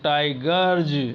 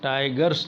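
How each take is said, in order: First: The word ends with a 'z' sound. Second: The word ends with an 's' sound. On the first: The speaker calls it right. "Tiger में जे जोड़ेंगे तो टाइगर्स" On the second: The speaker calls it wrong. "टाइगर्स नहीं होगा"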